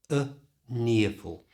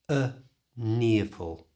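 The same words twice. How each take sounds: No difference in how they are said.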